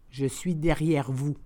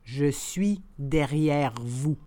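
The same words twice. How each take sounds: First: The phrase is said at conversational speed. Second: The phrase is said slowly and carefully. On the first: "and then in communicational Canadian French" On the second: "then slowly said in French"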